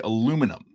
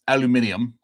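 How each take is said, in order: First: It is said with four syllables, North American style. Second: It is said with five syllables, British style. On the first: "North America, we say aluminum" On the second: "everybody in the U K, you guys say aluminium"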